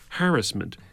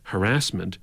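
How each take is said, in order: First: The stress is on the first syllable. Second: The stress is on the second syllable. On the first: "was changed to harassment to reflect the harassment the teachers felt they were being subjected to by the Harris government" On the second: "the common pronunciation of the word harassment"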